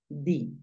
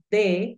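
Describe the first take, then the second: First: The word ends with an 'i' vowel sound. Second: The word ends with an 'e' vowel sound. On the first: "en algunos casos obligatorios di" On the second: "lo puedes pronunciar de"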